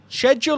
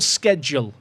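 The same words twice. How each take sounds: First: The word begins with an 'sh' sound. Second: The word begins with an 'sk' sound. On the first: "Is it a shed" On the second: "or is it a sked?"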